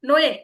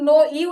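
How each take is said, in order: First: It is said as one gliding syllable, 'noe'. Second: It is said as two syllables, 'no' and 'ee'. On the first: The speaker calls it right. "এখানে কি উচ্চারণ হবে?" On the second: The speaker calls it wrong. "এখানে কিন্তু নো ই উচ্চারণ হবে না"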